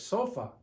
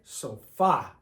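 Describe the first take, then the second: First: The stress is on the first syllable. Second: The stress is on the last syllable. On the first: The speaker calls it wrong. "This should be pronounced sofa, like in English" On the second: The speaker calls it right. "But in Spanish, we say sofa"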